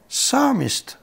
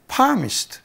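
First: The word starts with an s sound. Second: The word starts with a p sound. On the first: The speaker calls it right. "と言わなきゃいけないところ" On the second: The speaker calls it wrong. "パームって手のひらですよね"

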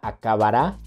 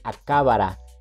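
First: The stress is on the last syllable. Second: The stress is on the second syllable. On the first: "la palabra acabará" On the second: "se esdrujuliza y se convierte en acábara"

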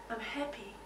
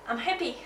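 First: It is said in a peaceful, calm way. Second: It is said with lively, high energy. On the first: "I can say very peaceful and calm" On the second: "I can say very energetically"

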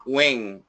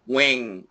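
The two takes are said the same way.

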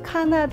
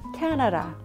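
First: All syllables are said with equal force. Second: The first syllable is strong, the rest weak. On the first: The speaker calls it wrong. "카나다 이러시면 안 돼요" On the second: The speaker calls it right. "캐나라 앞에 있죠"

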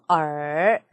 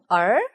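First: The pitch dips low. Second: The pitch rises like a question. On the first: "삼성" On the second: "이성"

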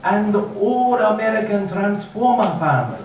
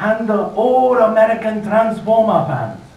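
First: It is said at normal volume, without projection. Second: It is said louder, projected as over distance.

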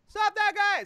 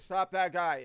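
First: It is said high with a yelling quality. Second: It is said low without a yelling quality. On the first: "And then it starts to sound like" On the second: "it doesn't have the character of a yell"

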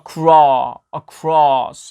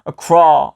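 First: The vowel resonates slightly farther back inside. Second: The vowel is pronounced plainly, without inner resonance. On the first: The speaker calls it right. "약간 살짝 안쪽에서 울려주는 소리" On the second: The speaker calls it wrong. "across가 아니라"

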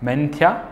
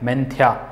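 First: The word ends with a clear final 'aa' vowel. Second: The word ends with a clear final 'aa' vowel.

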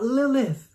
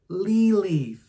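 First: The name has an English-style pronunciation. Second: The name has a Hebrew-style pronunciation. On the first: It names the figure from folklore. The speaker calls it wrong. "Not Lilith" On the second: It names the word used in the Hebrew text. The speaker calls it right. "meaning in the Hebrew"

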